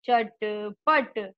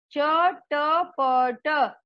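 First: Said in the usual way. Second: चटपट split slowly into cha-ta-pa-ta; syllable by syllable. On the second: Shown as a demonstration. Teacher to children, sounding out चटपट slowly. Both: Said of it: "शुद्ध उच्चारण के साथ हम बार बार दोहरा".

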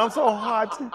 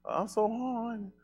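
First: High, loud mock complaint; mocking whiny voice. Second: Whiny voice. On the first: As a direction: say the clean version instead. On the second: Retold or imitated. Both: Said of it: "Can't say horny".

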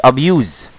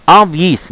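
First: "أبيوز" as ab-YOOZ with a buzzing Z; the mistaken "أبيوز", ending in Z; wrong pronunciation. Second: "أب-، يس" as ab-YEES, with no YOO sound; correct pronunciation. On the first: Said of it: "مش". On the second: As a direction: say "أب-، يس" with a long ee before the S. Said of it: "مش أبيوز". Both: Shown as a demonstration.

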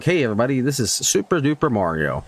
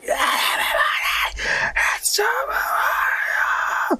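First: Said in the usual way. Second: Drawn-out, high, strangled scream. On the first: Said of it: "I'll be reading a script". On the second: Shown as a demonstration. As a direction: scream the greeting till you nearly pass out. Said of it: "I'd be screaming like".

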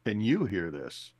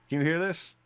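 First: "Can YOU hear this?" with a falling end; stress on YOU. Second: "Can you hear this?" lifting high on THIS; rising question. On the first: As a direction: hit the word "you" to address someone else. Asks again, to the other spirit. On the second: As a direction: ask it as a first test call, rising on "this". First mental call to Annie. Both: Acted.

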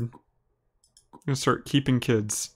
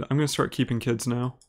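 First: Very slow, drawn-out, oddly voiced repeat. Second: Said in the usual way. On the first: Shown as a demonstration. Streamer repeating his own weird line, slow and strange. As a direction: stretch each word out, playing up how weird it sounds. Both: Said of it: "That sounds weird".

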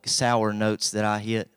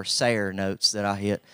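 First: Said in the usual way. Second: "sair" said to rhyme with "hair", for sour; "sair" with an air vowel, not an ow; hillbilly pronunciation. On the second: Shown as a demonstration. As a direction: say "sair" as one hillbilly syllable in place of sour. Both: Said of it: "Well, not sour".

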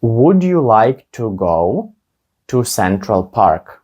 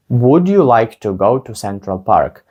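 First: Slow, careful, with pauses between chunks; slow model question. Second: Said in the usual way. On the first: Shown as a demonstration. Teacher modelling the question for students, slow and careful. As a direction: lay it out slowly for learners. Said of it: "teacher models slow, then normal". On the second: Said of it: "teacher repeats at normal speed".

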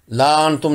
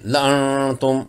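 First: ला अंतुम with a long ला; wrong reading. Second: ला अंतुम slow, alif not read; correct reading. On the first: (ला अंतुम गलत, लंबा ला) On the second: (ला अंतुम सही, धीमे) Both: Shown as a demonstration. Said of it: "नहीं है".

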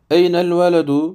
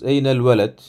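First: Eynel veledu with the final -u sounded, said higher and louder; full ending. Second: Eynel veled closed on a silent d; sukun ending. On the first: Teacher to students, full vowel ending. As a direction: give veledu its closing vowel. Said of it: "veya bakın cezimli okuyabiliriz". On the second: Teacher to students, ending read with sukun. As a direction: cut veled short on the consonant. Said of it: "bakın cezimli okuyabiliriz". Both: Shown as a demonstration.

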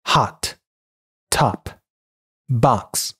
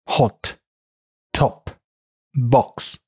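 First: American hot, top, box with open "ah"; American English demo of hot, top, box; American pronunciation. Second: British hot, top, box with short rounded o; British English demo of hot, top, box; British pronunciation. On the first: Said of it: "美音". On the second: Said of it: "英音". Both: Shown as a demonstration.

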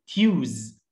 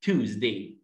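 First: تيوز with a y-glide, "tyooz"; wrong vowel. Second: Tuesday as "TOOZ-day", no y-glide; corrected vowel. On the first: Teacher shows learners the mistake, wrong vowel. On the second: Teacher corrects the word for learners, plain oo. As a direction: say Tuesday with a plain oo, lower pitch. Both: Shown as a demonstration. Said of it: "غلط".

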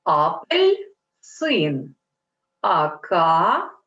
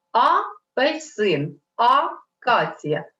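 First: Апельсин, акація split correctly, slow, lower; correct hyphenation demo. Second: Апельсин, акація split wrongly, slow, with a single letter torn off; wrong hyphenation demo. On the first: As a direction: show the right way to split Апельсин and акація, slowly. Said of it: "Треба робити ось так". (повільно, з правильним поділом слів Апельсин, акація) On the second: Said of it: "Не можна робити так". (повільно, з неправильним поділом слів Апельсин, акація) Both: Shown as a demonstration.

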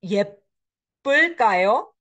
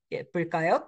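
First: 예쁠까요 stretched out slowly, louder, with a long rising end; teacher's careful demo of 예쁠까요; slow model reading. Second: Said in the usual way. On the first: Shown as a demonstration. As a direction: sound out 예쁠까요 slowly for students. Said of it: "somebody will be pretty?".

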